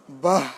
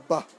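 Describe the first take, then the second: First: "বাহ" drawn out too long and loud; wrong, over-long ending. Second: "বাহ" short, with only a half h; half-h ending. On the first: Teacher showing how not to say it, "বাহ" overlong. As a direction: overdo "বাহ" with a heavy, lengthened ending. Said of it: "এরকম না". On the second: Teacher correcting to a half h, short "বাহ". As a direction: clip "বাহ" off on a light puff of h. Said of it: "অর্ধ হ হবে". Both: Shown as a demonstration.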